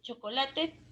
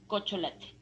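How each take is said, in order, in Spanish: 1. Las consonantes están en su orden normal. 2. Las dos primeras consonantes están intercambiadas. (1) "En vez de chocolate" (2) "Son sustituciones"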